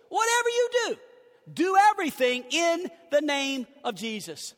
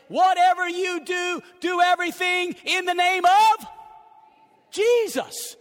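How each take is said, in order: First: "you" raised, then settling down on "Jesus"; repeated emphasis. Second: "Whatever" and "Jesus" high and loud; emphasis. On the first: Pastor restating the verse to his church, calmer. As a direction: say it again, easing off at the end. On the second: Pastor showing the congregation the emphasis, loud and rising. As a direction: punch the blue words, climbing to "Jesus". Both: Shown as a demonstration. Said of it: "Notice the emphasis in the verse".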